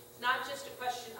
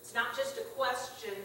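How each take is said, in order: Both takes have the same delivery.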